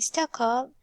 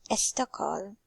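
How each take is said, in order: First: The word begins directly with the s sound. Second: A short vowel is added before the s sound. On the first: The speaker calls it right. "instead of saying Stockholm" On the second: The speaker calls it wrong. "We hear Persian people add a before these clusters"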